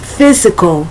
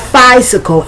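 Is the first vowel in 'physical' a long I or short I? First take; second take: short I; long I. First: The first vowel is a short 'ih' sound. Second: The first vowel is a long 'eye' sound. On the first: The speaker calls it right. "it's physical; but the short I" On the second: The speaker calls it wrong. "It's not physical; the pronunciation of the Y is not the long I"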